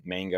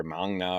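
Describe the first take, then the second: First: "manga" with the a of "man"; short-a variant. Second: "manga" with the a of "father"; broad-a variant. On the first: Teacher offering one variant, short-a "manga". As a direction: say "manga" as MANG-guh, short a. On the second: Teacher offering the other variant, broad-a "manga". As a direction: say "manga" as MAHNG-guh, open a. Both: Shown as a demonstration. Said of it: "whatever we're calling it these days".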